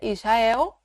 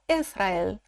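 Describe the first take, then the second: First: The word is said with Portuguese pronunciation. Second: The word is said with German pronunciation. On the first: "Em português a gente falaria Israel" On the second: "em alemão Israel"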